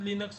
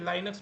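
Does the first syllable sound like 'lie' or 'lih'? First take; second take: lih; lie. First: The first vowel is a short 'i' sound. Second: The first vowel is a long 'eye' sound. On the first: The speaker calls it right. "Correct pronunciation लिनक्स ही होता है" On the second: The speaker calls it wrong. "बहुत सारे लोग इसको लाइनक्स भी बोलते हैं"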